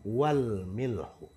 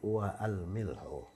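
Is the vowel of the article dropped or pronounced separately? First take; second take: dropped; separate. First: Wa runs straight into lam with no extra vowel. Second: The article's vowel a is pronounced after wa. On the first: The speaker calls it right. "jadi setelah wa langsung ke lam" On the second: The speaker calls it wrong. "bukan wa al milhu"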